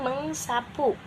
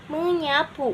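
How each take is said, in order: First: The prefix is meng and the s is kept. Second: The prefix is meny and the s is dropped. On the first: The speaker calls it wrong. "bukan mengsapu" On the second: The speaker calls it right. "Itu akan menjadi menyapu"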